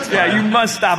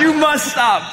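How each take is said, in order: First: Laughing, a bit calmer; incensed. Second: Loud laughing outburst; incensed shout. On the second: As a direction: yell it, half laughing. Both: Acted. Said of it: "I'm incensed".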